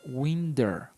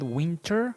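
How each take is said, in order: First: The middle consonant sounds like a soft D. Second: The middle consonant is a clear T sound. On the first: "it's kind of like winder" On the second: "It's not winter"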